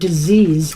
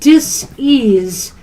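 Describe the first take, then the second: First: The word is said as one ordinary word. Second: The word is broken into dis and ease. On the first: It names an illness. "instead of disease" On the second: There is a lack of ease and a feeling of pressure. "I like to say it that way"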